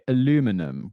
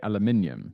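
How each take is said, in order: First: It is said the way the listener says it. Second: It is said the way the speaker says it. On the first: This is how the other person says it. "you would say aluminum" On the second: This is how the speaker says it. "I would say aluminium"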